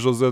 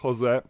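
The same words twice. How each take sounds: First: The name starts without an H sound. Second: The name starts with an H sound. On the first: The speaker calls it wrong. "Nie mówię Jose" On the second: The speaker calls it right. "tylko Jose"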